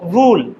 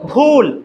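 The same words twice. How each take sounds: First: The first sound comes without a strong puff of air. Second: The first sound comes with a strong puff of air. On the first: The speaker calls it wrong. "Not ভুল" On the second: The speaker calls it right. "একটা ধাক্কা"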